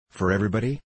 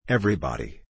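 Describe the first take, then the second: First: EVERYBODY rising at the end as a question; questioning rise. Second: EVERYBODY falling firmly to a close; confirming fall. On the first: D'Artagnan checks with Molière who is barred, questioning rise on EVERYBODY. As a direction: ask it, lifting the pitch through EVERYBODY. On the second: Molière confirms that all are barred, falling tune on EVERYBODY. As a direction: answer with a downward tune on EVERYBODY. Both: A narrator's reading.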